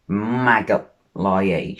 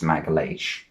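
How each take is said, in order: First: The name is said with anglicized sounds. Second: The name is said with Portuguese-style sounds. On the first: The speaker calls it wrong. "that's not how you pronounce it" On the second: The speaker calls it right. "it's Magalhaes"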